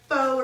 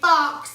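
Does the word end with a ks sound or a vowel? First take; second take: vowel; ks sound. First: The word ends with a plain vowel. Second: The word ends with a ks sound. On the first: The speaker calls it right. "It's like faux or something" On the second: The speaker calls it wrong. "I say fox, and it's not fox"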